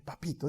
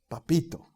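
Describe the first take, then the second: First: "Papito" said very softly, almost breathed; whispered papito. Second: Soft, tender "Papito"; affectionate papito. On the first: Preacher showing intimate love for God, very soft. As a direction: murmur "Papito" with deep tenderness. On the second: Preacher showing how to call God, softly and tenderly. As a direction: say "Papito" like a loving child. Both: Shown as a demonstration. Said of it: "Con cariño".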